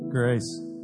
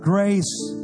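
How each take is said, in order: First: It is said quietly and half-heartedly. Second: It is shouted loudly with full energy.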